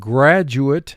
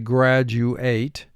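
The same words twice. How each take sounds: First: The last syllable is reduced, like 'it'. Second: The last syllable is full, like 'eight'.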